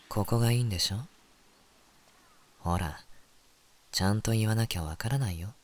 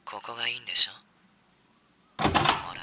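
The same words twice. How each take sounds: First: Seductive teasing voice. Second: A hint of seductive teasing. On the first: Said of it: "次、お前な。". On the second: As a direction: tease like a seducer. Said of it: "次、お前のな。". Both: Shown as a demonstration.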